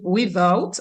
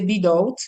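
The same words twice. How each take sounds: First: It is said with standard English pronunciation. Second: It is said with Dominican Creole pronunciation. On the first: "The standard says without" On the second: "in the Dominican English Creole, we say without"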